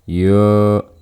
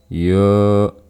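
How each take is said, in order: The two takes are said the same way.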